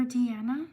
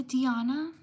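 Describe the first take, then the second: First: Deanna said dee-AN-a; alternative pronunciation. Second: Deanna said dee-AH-na; alternative pronunciation. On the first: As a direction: say Deanna with a short "a" as in "Anna". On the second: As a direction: say Deanna with an open "ah" in the middle. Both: Shown as a demonstration. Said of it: "Sorry if I mispronounced".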